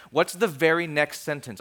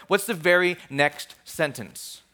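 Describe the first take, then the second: First: Said in the usual way. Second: Slow down and weight each word; slow emphatic repeat. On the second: Real, not acted. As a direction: draw the question out slowly. Same question repeated for emphasis.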